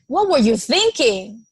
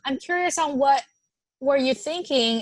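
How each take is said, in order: First: Blunt, pointed, a hint of blame; a mild edge of reproach on the question; lightly accusatory demand; accusing tone. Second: Gentle curious asking. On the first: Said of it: "is very different than". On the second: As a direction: sound genuinely interested, not blaming. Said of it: "it also depends on the tone you use". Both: Shown as a demonstration.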